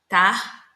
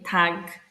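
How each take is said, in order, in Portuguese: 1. A palavra termina com o som suave de 'ch'. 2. A palavra termina com o som duro de 'g'.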